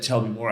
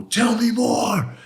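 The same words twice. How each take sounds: First: Said in the usual way. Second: "Tell me more" yelled much higher and louder, slowly; a retold furious shout, drawn out; angry yell. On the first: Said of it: "the last time I said". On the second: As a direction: bellow "Tell me more" slowly in his face, every word hit. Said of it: "I got real angry and I yelled at him".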